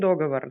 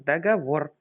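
First: The stress is on the first syllable. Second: The stress is on the last syllable. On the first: The speaker calls it wrong. "не договор" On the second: The speaker calls it right. "Повторите. Договор"

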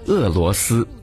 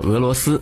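First: It is said with a Taiwan Mandarin pronunciation. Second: It is said with a mainland Mandarin pronunciation. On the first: "把这个俄罗斯读作俄罗斯" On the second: "把俄罗斯读作俄罗斯"

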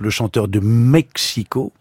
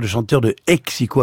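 First: The last word begins with a closed-lip M sound. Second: The last word begins with a breathy H sound. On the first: "au lieu de dire" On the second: "il va dire le chanteur de Hexico avec un H"

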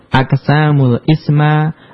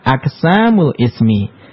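First: The final word ends in the vowel a. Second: The final word ends in the vowel i. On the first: The speaker calls it wrong. "enggak boleh dibaca" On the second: The speaker calls it right. "yang benar adalah"

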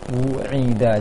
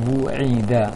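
The two takes are said the same way.

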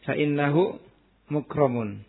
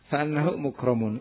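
First: The vowel after fa is an i sound. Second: The vowel after fa is an a sound. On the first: The clause is complete and needs no implied word. "Dibaca kasrah" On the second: An omitted predicate must be understood. "Adapun kalau dibaca anak, berarti ada penakdiran"

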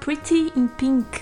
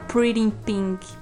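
First: It is said with a British accent. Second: It is said with an American accent. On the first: "o sotaque do vocalista é britânico, então toda British. Vez que eu leio, eu falo" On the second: "Eu não consigo falar Pretty in Pink, porque parece que eu tô falando errado"

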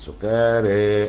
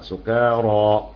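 First: The final vowel is slightly inclined toward e. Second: The final vowel is an open a sound. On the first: "ورش التقليل" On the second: "بالفتح"

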